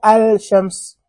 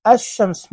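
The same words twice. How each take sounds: First: "الشمس" as al-shams, with a clear L; lam wrongly pronounced. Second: "الشمس" as ash-shams, no L, doubled sh; lam left silent. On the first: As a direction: sound the L in "الشمس" before a single sh. ("الشمس" بنطق اللام خطأً: أَلْ شمس) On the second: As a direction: say "الشمس" gliding straight from a into a doubled sh. ("الشمس" بلام شمسية لا تُنطق وشين مشددة) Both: Shown as a demonstration. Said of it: "مو الشمس".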